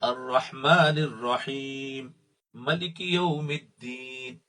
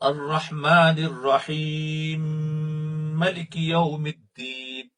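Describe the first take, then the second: First: The final m of rahim stays separate. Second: The final m of rahim merges into maliki. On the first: "दूसरी किरात में मलिक यौमिद्दीन है" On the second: "इस मीम को इस मीम के साथ ज्वाइन करना"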